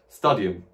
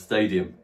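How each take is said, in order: First: It is said with a Latin-style pronunciation. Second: It is said with an English-style pronunciation. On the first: "The way I'm pronouncing these words at first is in the Latin style" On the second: "in English"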